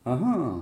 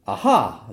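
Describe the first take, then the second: First: "ah ah" a semitone down, drawn out; earlier minor-key "ah ah". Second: "ah ah" jumping up strongly on the second ah; major-key "ah ah". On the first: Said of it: "de tout à l'heure". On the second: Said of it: "d'à présent". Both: Shown as a demonstration.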